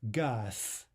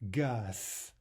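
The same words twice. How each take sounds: The two takes are said the same way.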